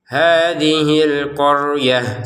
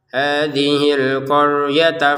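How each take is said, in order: First: The last word ends in an h sound and stops. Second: The last word ends in a t sound, linked onward. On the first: "kita bacanya qaryah ini sebagai huruf ha karena berhenti" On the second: "kalau digabungkan dia menjadi tak sebagaimana semula"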